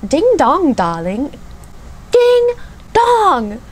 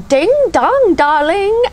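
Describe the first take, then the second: First: Retry the British catchphrase, swooping high then falling; second go at a mock British judge accent, pitch leaping up; [name]'s British accent, second try. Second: Much higher, posh-sounding British judge voice, badly done; hammed-up British accent, sing-song rise; first try at a camp British accent, much higher and louder; [name]'s British accent. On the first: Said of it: "Let me try again". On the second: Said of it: "have a terrible British accent".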